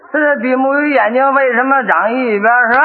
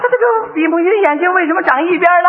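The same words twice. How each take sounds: First: Mildly hesitant, in the usual pitch; stalling. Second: Higher-pitched puzzled repeat of the question; flustered stalling. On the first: Father stalling over son's fish question, mildly hesitant. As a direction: repeat the question to buy time. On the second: Father still stuck on son's question, mildly flustered. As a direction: play stumped, voice pitched up. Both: Acted.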